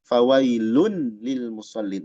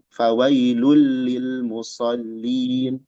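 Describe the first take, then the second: First: A clear n sound comes before the l. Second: The n merges straight into the l sound. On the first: The speaker calls it wrong. "kita tidak baca fawailun lil musallin, enggak" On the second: The speaker calls it right. "Tapi fawailulli, lulli. Nah, langsung ke lam"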